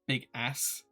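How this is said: It is said with an American pronunciation. "big ass would be more American"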